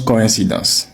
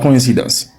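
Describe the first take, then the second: First: The first two vowels are said separately. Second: The first two vowels merge into one sound. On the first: The speaker calls it right. "cette partie se prononce co. Ici, incidence" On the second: The speaker calls it wrong. "Ce n'est pas coïncidence"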